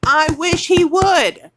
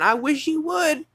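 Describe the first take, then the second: First: Slow, much louder, higher dare; slow loud furious dare; defiant challenge. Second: Said in the usual way. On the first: Real, not acted. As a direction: call him out, daring him. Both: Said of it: "I'm furious".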